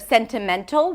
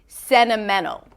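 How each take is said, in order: First: The T after the N is clearly pronounced. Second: The T after the N is dropped. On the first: "which is maybe how you perceive the word because of the spelling" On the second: "we're actually hearing sentimental"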